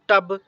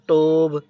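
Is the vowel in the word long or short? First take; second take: short; long. First: The vowel is clipped short. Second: The vowel is drawn out long. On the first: The speaker calls it right. "ये बिल्कुल short है, जैसे टब" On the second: The speaker calls it wrong. "मैंने ऐसे नहीं कहा टोब"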